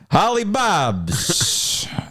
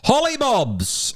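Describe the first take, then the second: First: It is said in a New York accent. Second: It is said in a posh British accent.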